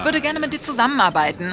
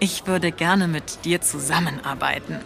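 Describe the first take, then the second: First: It is spoken fast. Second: It is spoken slowly.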